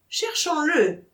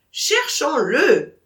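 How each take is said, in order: First: Said in the usual way. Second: Slow, loud, doubtful echo; unconvinced. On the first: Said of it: "dit Michel". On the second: Acted. Vatrin shaking his head, echoing Michel, slow and unconvinced. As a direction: say it without believing it. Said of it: "secouant la tête comme un homme médiocrement convaincu".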